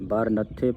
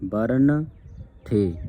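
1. ਦੋਵੇਂ ਉਚਾਰਖੰਡ ਦੋਹਰੇ 'th' ਨਾਲ ਜੁੜੇ ਹੋਏ ਹਨ। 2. ਦੋਵੇਂ ਉਚਾਰਖੰਡ ਇੱਕ ਸਿੰਗਲ 'th' ਨਾਲ ਵੱਖ ਰੱਖੇ ਗਏ ਹਨ। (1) "ਬਰ ਨੱਥੇ ਪਾਠ ਉਚਾਰਨ ਨਹੀਂ ਕਰਨਾ" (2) "ਬਰਨ ਥੇ ਇਸ ਤਰ੍ਹਾਂ ਪੜ੍ਹਨਾ ਹੈ"

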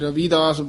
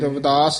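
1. 'Rav' ਤੋਂ ਬਾਅਦ ਵਾਲਾ ਸਵਰ ਲੰਬਾ ਹੈ। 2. 'Rav' ਤੋਂ ਬਾਅਦ ਵਾਲਾ ਸਵਰ ਛੋਟਾ ਹੈ। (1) "ਕਈ ਰਵਿਦਾਸ ਬੋਲ ਜਾਂਦੇ ਨੇ ਬਿਹਾਰੀ ਨਾਲ, ਬਿਹਾਰੀ ਨਾਲ ਨਹੀਂ ਬੋਲਣਾ ਹੈ" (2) "ਇਹ ਰਵਿਦਾਸ ਹੀ ਉਚਾਰਨ ਕਰਨਾ"

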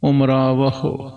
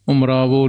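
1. ਸ਼ਬਦ ਦਾ ਅੰਤ 'ahu' ਦੀ ਆਵਾਜ਼ ਨਾਲ ਹੁੰਦਾ ਹੈ। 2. ਸ਼ਬਦ ਦਾ ਅੰਤ 'o' ਦੀ ਆਵਾਜ਼ ਨਾਲ ਹੁੰਦਾ ਹੈ।

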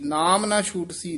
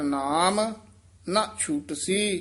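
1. ਸ਼ਬਦ ‘ਨਾਮ’ ਤੋਂ ਬਾਅਦ ਕੋਈ ਵਿਰਾਮ ਨਹੀਂ, ਸ਼ਬਦ ਆਪਸ ਵਿੱਚ ਜੁੜੇ ਹੋਏ ਹਨ। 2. ‘ਨਾਮ’ ਤੋਂ ਤੁਰੰਤ ਬਾਅਦ ਇੱਕ ਛੋਟਾ ਜਿਹਾ ਵਿਰਾਮ ਹੈ। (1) "ਨਾਮ ਨਾ ਛੂਟ ਸੀ ਨਹੀਂ ਕਹਿਣਾ ਹੈ" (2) "ਬਿਨ ਹਰ ਨਾਮ, ਇੱਥੇ ਠਮਕ ਹੈ"

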